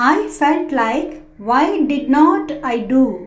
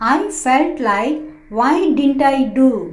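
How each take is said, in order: First: Did not is said as two full words. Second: Did not is contracted into one word. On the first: "డిడ్ నాట్ అన్నా" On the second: "డింట్ అన్నా"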